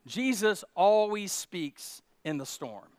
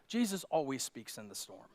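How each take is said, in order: First: "Jesus always speaks in the storm" again slower, stress on "always"; slow emphatic repeat. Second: Soft statement. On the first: Preacher repeating his point slowly, stressing "always". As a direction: lean on "always" and draw it out. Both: Shown as a demonstration. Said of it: "Let me say this".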